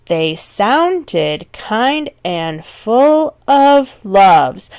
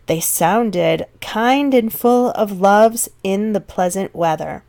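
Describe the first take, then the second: First: Very slow, each beat of "They sounded kind and full of loves" leaned on; slowed right down to show the rhythm; emphasized meter. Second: A first, lighter reading of the line; verse line read. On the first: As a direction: stretch the line and hit every stressed syllable of "full of loves". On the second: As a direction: read evenly, slightly slowed. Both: Shown as a demonstration. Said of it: "hear me kind of emphasizing that".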